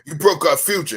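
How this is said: It is said in a put-on male voice. "I'm gonna give you the male voice"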